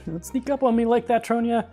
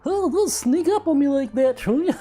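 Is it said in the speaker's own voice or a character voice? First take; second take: own voice; character voice. First: It is said in the speaker's own voice. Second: It is said in a put-on character voice.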